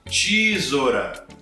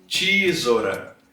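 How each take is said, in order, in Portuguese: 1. O primeiro som é um som de "ch". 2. O primeiro som é um som de "ch".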